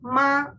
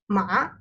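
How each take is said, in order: First: The pitch stays high and level throughout. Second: The pitch rises from middle to high. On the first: It means mother. "high level tone" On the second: It means hemp. "to rising tone"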